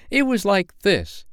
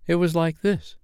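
First: Put-on confident child demonstrating. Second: Demonstrating mother. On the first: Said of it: "she did it ever so much better". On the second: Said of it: "trying to imitate Peter's crow". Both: A narrator's reading.

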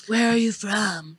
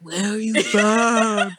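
First: Said in the usual way. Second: "Where are you from?" drawn out very slowly; mock-insistent customer stretching "Where are you from?" to spell it out; insistent repeat. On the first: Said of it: "aren't, like, smart enough". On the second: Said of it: "No, like".

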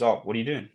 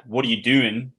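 First: Friendly What are you doing; gentle tone. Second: Sharp, accusing question; confronting What are you doing. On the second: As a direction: snap it out like you caught them at something. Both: Shown as a demonstration. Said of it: "a sentence said with a certain tone".

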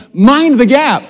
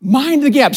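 First: Mock British accent on "Mind the gap", higher and louder; a congregation-leading British accent. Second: Said in the usual way. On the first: Shown as a demonstration. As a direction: call it out in a hammed-up British accent. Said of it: "you gotta say it with a British accent". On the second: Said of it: "Say it with me".

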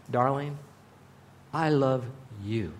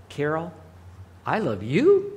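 First: Soft, tender "Darling, I love you" fading low; loving whisper to his wife. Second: Casual, careless "I love you"; offhand "I love you". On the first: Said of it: "Now she knows". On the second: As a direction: toss off "Carol, I love you" without meaning it. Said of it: "how I did it with my tone". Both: Shown as a demonstration.

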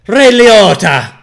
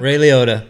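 First: "Ray Liotta" drawn out slow, higher and louder; dramatic name drop. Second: Said in the usual way. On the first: Acted. Naming the Blow cast for the toast, slow trailer announcement.

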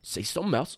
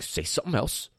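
First: Kevin Hart impression. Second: Mock arguer. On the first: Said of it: "so Kevin Hart sounded". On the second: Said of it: "when some people argue too, they, like, clap their hands".

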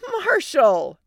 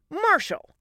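First: High, loud, drawn-out name call; yelling. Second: High, sharp falling name call; snapped. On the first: Wife phoning husband over child's wailing, yelling. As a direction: yell it urgently over noise. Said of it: "Allie yelled over the wailing". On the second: Wife catching husband playing doctor, snapping. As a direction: snap it as a short reprimand. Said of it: "Allie snapped". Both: Acted.

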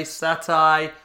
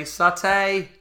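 First: "satay" drawn out, ending like "eye". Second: "satay" drawn out, ending like "hay". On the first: Co-host comparing his own pronunciation, "satay" as sat-eye. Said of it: "I say satay". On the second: Co-host imitating his friend's pronunciation, "satay" as sat-ay. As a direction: slowly show "satay" with an -ay ending. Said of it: "You say satay". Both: Shown as a demonstration.

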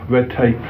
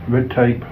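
The two takes are said the same way.

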